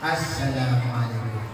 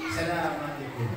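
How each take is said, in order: First: It begins with a clear 'a' vowel. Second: The opening 'a' vowel is dropped. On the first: The speaker calls it right. "harus ada alifnya" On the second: The speaker calls it wrong. "Apabila kita membaca alif kita buang"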